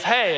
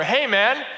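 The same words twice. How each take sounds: First: Mild mock yell, slightly raised; retold yell. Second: Higher-pitched mock holler; louder retold yell. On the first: Homeless man calls to a passerby, mild retold yell. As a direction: call out "Hey" as an imitation. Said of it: "he yells". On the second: Homeless man calls again to someone ignoring him, louder mock yell. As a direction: imitate a louder call for attention. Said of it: "I hear him yell even louder".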